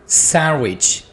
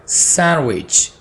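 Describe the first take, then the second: No difference in how they are said.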